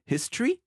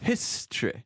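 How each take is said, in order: First: "history" ending on a clear I sound; ordinary English "history", closing on I; standard British ending. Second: "History" ending on an E sound, "histreh"; mock-royal "History" with final "eh"; Queen Elizabeth II. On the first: Shown as a demonstration. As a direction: say "history" with a final "ee". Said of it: "avec un I à la fin". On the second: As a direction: say "History" regally, closing on E not I. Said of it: "se termine par un son E".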